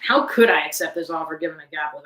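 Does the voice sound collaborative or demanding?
demanding. It sounds blunt and demanding. The speaker is making a confrontational demand. "the recruiter might read it as"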